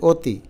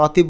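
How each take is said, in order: First: অতি with a rounded 'o' at the start; close, rounded first vowel in অতি; natural pronunciation. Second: অতি with an open 'aw' at the start; spelling pronunciation. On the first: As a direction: say অতি as 'o-ti'. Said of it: "আমরা তো বলি অতি". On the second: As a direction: say অতি as 'aw-ti'. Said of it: "আমরা তো অতি বলি না". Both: Shown as a demonstration.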